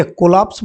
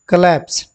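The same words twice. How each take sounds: First: कोलैप्स said as "ko-laps" with an open o and a flat a; the mistaken "ko-laps" reading of कोलैप्स; wrong pronunciation. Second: कोलैप्स said as "kuh-leps" with a weak first vowel and an e sound; correct pronunciation. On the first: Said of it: "कोलैप्स इसको नहीं पढ़ेंगे". (कोलैप्स को "को-लैप्स" की तरह गलत उच्चारण) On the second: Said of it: "क्या बोलेंगे, कोलैप्स". (कोलैप्स का सही उच्चारण "कलेप्स") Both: Shown as a demonstration.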